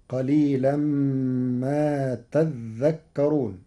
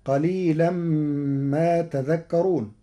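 First: تذكرون with a doubled dh, taddhakkarun; slow chant with doubled dh in تذكرون; Warsh reading of تذكرون. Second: تذكرون with a light single dh; slow chant, تذكرون with single dh; common reading of تذكرون. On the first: Teacher shows Warsh, doubled dh in تذكرون. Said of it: "بتشديد الذال". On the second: Teacher recites the usual form, تذكرون with light dh. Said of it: "قرأ ورش كلمة تذكرون". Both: Shown as a demonstration.

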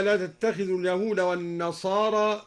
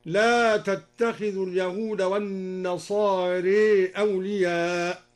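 First: Said in the usual way. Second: والنصارى said wan-nasārē, slow; إمالة النصارى; nasārā with imala. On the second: Shown as a demonstration. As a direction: bend the final alif of والنصارى toward e. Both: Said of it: "بالإمالة أيضا".

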